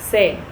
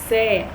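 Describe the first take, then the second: First: The vowel is kept short. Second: The vowel is drawn out long. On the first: The speaker calls it right. "We should only say say, ... We shouldn't elongate it" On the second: The speaker calls it wrong. "This is incorrect, guys"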